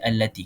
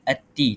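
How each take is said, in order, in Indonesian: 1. Bunyi L diucapkan dengan jelas. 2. Bunyi L dihilangkan dari kata tersebut. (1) "Kita baca allati. Kita memperjelaskan bunyi lam tersebut" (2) "kita tak baca ati"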